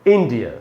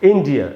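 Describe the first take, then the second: Both takes have the same delivery.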